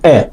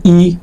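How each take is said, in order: First: ا said as a short clean German "e"; ا as a short e sound, not "ee"; German letter name. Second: ای said as a long English "ee"; the wrong English way, ای as in "E"; English letter name. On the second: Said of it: "دیگه مثل انگلیسی نیست که بهش بگیم ای". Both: Shown as a demonstration.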